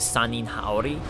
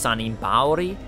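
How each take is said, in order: First: The second word begins with an h sound. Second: The second word begins with a b sound. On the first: "so I'll just keep calling it Sanin Haori" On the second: "Someone told me it was actually pronounced Sanin Baori"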